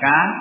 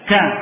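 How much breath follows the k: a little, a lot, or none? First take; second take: none; a lot. First: The k has no breath after it. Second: The k has a strong h-like breath. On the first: "Yang tanpa tekanan ya, tanpa syiddah" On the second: "tidak juga ka ya"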